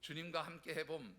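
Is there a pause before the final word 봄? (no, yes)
no. The phrase runs on without a break before 봄. Let's try doing it with the Lord. The speaker calls it wrong. "이렇게 하면 안 되시고요"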